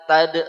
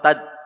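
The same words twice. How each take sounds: First: The final consonant is released with a bounce. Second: The final consonant is held without a bounce. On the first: The speaker calls it wrong. "Fi tad tad enggak boleh" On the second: The speaker calls it right. "Jadi hilangkan qalqalahnya"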